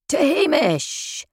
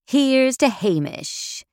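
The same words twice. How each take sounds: First: A high, slow roared group toast; rowdy jeering pub banter. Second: Slow raised toast. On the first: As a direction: roar it back like rugby lads. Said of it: "The six big rugby lads roared back at me". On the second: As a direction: lift a glass and drawl it out, higher. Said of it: "as I toasted my absent boss". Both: A narrator's reading.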